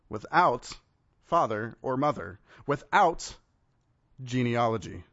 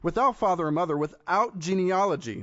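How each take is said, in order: First: It is said more slowly. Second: It is said at normal speed.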